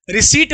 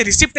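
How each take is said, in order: First: रिसीट with a silent P; long-ee रिसीट, no P sound; correct pronunciation. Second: रिसिप्ट with the P sounded; short i and a sounded P in रिसिप्ट; wrong pronunciation. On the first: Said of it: "रिसीट पढ़ते हैं". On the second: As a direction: say रिसिप्ट with an audible "pt". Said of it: "इसे रिसिप्ट नहीं पढ़ते". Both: Shown as a demonstration.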